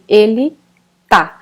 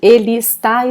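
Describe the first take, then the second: First: The verb keeps only its last syllable. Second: The verb is said in full, both syllables. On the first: "we drop the first one and just say the last syllable" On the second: "instead of saying ele está"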